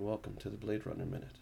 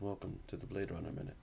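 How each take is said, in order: First: It is said in a loud, energetic announcer style. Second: It is said in a calm, quiet radio style.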